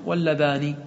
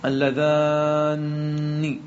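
First: واللذان with a short, single light n; واللذان unstretched, ending in a simple ni; light single nun. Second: اللذان with a long-held aa and heavy doubled n; doubled nun. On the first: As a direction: say واللذان without doubling or holding the n. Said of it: "ولك أن تحذف النون". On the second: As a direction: stretch اللذان slowly into a geminated nun. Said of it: "لك تشديد النون". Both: Shown as a demonstration.

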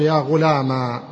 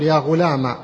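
First: "غلام" ending in long aa; alif ending. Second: "غلام" ending in short a; fatha ending. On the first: Teacher turning fatha into alif, "غلام" said ghulamaa. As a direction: say "غلام" as ghulamaa, holding the last vowel. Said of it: "ألف، تقول". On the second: Teacher replacing ya with fatha, "غلام" said ghulama. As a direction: say "غلام" as ghulama, last vowel brief. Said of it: "فتحة، تقول". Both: Shown as a demonstration.

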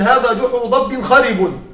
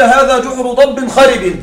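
First: خرب ending in damma, said kharibun; full case ending u on خرب; nominative reading. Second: Final word خرب ending in kasra, said kharibin; خرب with the i ending of the neighbouring ضب; genitive by proximity. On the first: Teacher contrasting the proper nominative reading, خرب with damma. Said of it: "أسهل من". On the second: Teacher showing students the easy reading, خرب with kasra. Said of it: "فمن باب السهولة أن أقول". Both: Shown as a demonstration.

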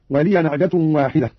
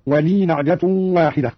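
First: Said in the usual way. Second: "ولي" as wa lii, running on into "نعجة"; silent-vowel ya. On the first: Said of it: "قرأ قالون". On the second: Shown as a demonstration. Teacher showing Qalun, slower, "ولي" read wa lii. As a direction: hold "ولي" on a long ii, no a after it. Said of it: "قرأ قالون بإسكان الياء".

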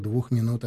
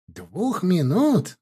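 First: Said in the usual way. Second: Slow, incredulous echo, pitched up; exclaimed. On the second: A narrator's reading. Law student echoes his friend's insult, exclaiming in surprise. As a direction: exclaim it as a drawn-out, higher question. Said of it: "воскликнул будущий юрист".

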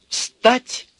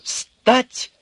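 First: Very high, loud order; authoritative command. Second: Authoritative command. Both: A narrator's reading. Bespectacled man ordering Urka up, commanding. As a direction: command him to his feet. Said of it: "скомандовал очкарик довольно властно".

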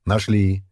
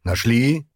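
First: Short, firm answer; curt confirmation. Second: Caustic question with a rising end; sarcastic. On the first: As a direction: confirm it in one brief, firm word. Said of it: "коротко кивнул грубый Диан". (короткий твёрдый ответ) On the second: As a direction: toss it out as a sneering question, pitched up. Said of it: "язвительно бросил Остах". (язвительный вопрос с подъёмом тона) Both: A narrator's reading.

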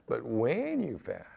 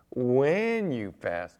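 First: "when" leaned on, slowed; stress on when. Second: Slow, WHEN leaned on hard; "When" drawn out and pressed, not "if"; stress on when. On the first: Preacher to congregation, slow stressed when. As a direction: press "when" firmly, not "if". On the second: Preacher correcting the congregation, stressing when. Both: Shown as a demonstration. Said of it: "not if you fast".

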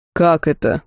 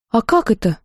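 First: Slightly lowered, boomy question; bass voice. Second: Slightly higher, silly puzzlement; mildly dumbfounded. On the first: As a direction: ask it in a mild bass. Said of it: "пробасил Карл". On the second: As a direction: ask it in mild, foolish surprise. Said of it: "глупо удивилась я". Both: A narrator's reading.

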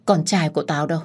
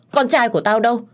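First: Said in the usual way. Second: Higher, louder insistent asking; confused mother crying out for her son, loud and high; demanding cry. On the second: A narrator's reading. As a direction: demand it urgently. Old woman repeats question louder.

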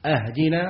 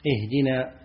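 First: "أهدنا" starting with a, ahdinaa; opened hamza. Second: Said in the usual way. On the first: Shown as a demonstration. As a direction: say "أهدنا" with a fatha on the first hamza. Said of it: "لو فتح الهمزة". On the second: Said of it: "أي دلنا".

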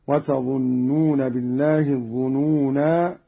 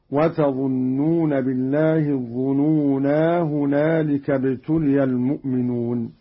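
First: الظنونا ending in a long aa at the pause; alif kept when stopping. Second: الظنونا with long aa run straight into هنالك; alif kept when joining. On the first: Teacher shows Qalun keeping the alif of الظنونا at a stop. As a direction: stop on الظنونا with its final aa sounded fully. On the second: Teacher shows Qalun keeping the alif of الظنونا in continuous reading. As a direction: keep the final aa of الظنونا while carrying on without a pause. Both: Shown as a demonstration. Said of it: "بإثبات الألف وصلا ووقفا".

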